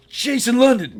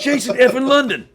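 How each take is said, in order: First: Very high, loud thrilled call of a name; excited shout. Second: Even louder, very high, laughing through the name; laughing shout. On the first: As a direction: belt the name out in delight. Tarantino spotting the speaker. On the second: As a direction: shout it again and crack up. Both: Retold or imitated.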